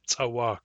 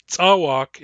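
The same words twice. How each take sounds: First: Tsawak stressed on the second syllable, tsa-WAK; Nuchanov-accented stress. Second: Tsawak stressed on the first syllable, TSA-wak; English-accented stress. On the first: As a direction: lean on the end of tsawak. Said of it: "Nuchanov accented Nuchanov sounds like tsawak". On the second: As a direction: punch the front of tsawak. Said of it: "tsawak is English, in, English accented Nuchanov". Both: Shown as a demonstration.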